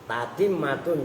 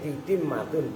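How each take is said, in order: First: The first syllable has the vowel a. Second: The first syllable has the vowel i. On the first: "Tak yang pertama itu boleh ta" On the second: "boleh ti"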